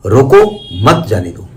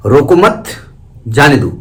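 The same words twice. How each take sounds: First: "रोको", break, then "मत जाने दो"; रोको alone and rising, pause, then मत जाने दो run together and falling; pause after रोको. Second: "रोको मत", break, then "जाने दो"; pause after मत. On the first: Teacher showing students where the stop falls, pause after रोको. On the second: Teacher showing students where the stop falls, pause after मत. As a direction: hold रोको and मत together, rising on मत, pause, then a falling जाने दो. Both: Shown as a demonstration. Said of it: "केवल कहाँ रुके हैं".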